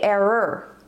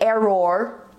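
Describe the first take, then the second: First: The final syllable has a reduced 'er' sound. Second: The final syllable has a full 'or' sound. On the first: The speaker calls it right. "we say" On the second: The speaker calls it wrong. "We don't say"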